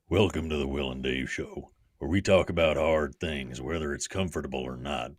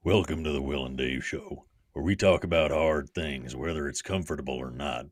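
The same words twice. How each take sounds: First: It is said in a Western voice, like Sam from The Ranch. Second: The same.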